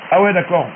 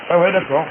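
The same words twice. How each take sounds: The two takes are said the same way.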